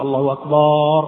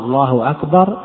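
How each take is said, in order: First: The vowel in the second word is stretched. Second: The first vowel of the first word is stretched. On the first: It changes the word into one meaning drums. "عندما يمد الله أكبر يقول الله أكبر" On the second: It turns the phrase into a question. "لو مد لفظ الجلالة فقال الله أكبر تحول إلى الاستفهام"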